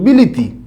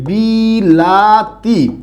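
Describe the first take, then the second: First: The middle vowel is a close 'i'. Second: The middle vowel is an open 'a'. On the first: "কলকাতান বন্ধু যারা আছে তারা উচ্চারণ করে এরকম" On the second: "মাঝে আছে আ"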